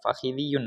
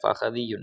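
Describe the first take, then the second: First: The second syllable has an 'i' vowel. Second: The second syllable has an 'a' vowel. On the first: The speaker calls it wrong. "ഫഹിദിയുൻ അല്ല" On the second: The speaker calls it right. "ഫഹദിയുൻ എന്നാണ് ഉണ്ടാവുക"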